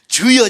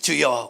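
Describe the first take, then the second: First: It is said loudly, like a cry. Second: It is said quietly, as to a neighbor.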